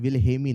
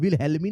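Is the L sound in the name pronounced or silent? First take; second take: silent; pronounced. First: The L sound in the name is silent. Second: The L sound in the name is pronounced. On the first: The speaker calls it right. "एल silent है" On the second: The speaker calls it wrong. "विलहेल्मी नहीं नाम है"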